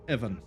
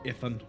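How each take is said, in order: First: The middle consonant is a v sound. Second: The middle consonant is an f sound. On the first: The speaker calls it right. "Just like Evan" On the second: The speaker calls it wrong. "It is not Ifan"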